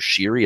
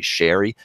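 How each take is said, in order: First: It does not sound like the drink. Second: It sounds like the drink sherry. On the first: This is the old pronunciation of the name. The speaker calls it wrong. "it's no longer Sherry" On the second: This is the current pronunciation of the name. The speaker calls it right. "it's actually Sherry, as in the drink"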